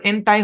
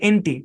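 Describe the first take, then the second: First: The second syllable ends in an 'eye' sound. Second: The second syllable ends in an 'ee' sound. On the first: The speaker calls it wrong. "এটার উচ্চারণ এন টাই হবে না" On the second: The speaker calls it right. "এটার উচ্চারণ এনটি"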